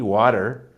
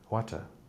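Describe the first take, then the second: First: Said in an American accent with a d sound. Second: Said in a British accent with a clear t. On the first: "Whereas I will say a D" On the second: "they will say a water"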